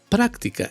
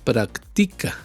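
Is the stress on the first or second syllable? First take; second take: first; second. First: The stress is on the first syllable. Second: The stress is on the second syllable. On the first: "le pones el acento que lleva la palabra práctica" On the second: "Si tú no lo acentúas, si no le pones la tilde"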